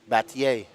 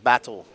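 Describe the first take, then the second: First: The name is said with a Spanish pronunciation. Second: The name is said like the English word battle. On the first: The speaker calls it right. "That's how you say it in Spanish" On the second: The speaker calls it wrong. "not Battle"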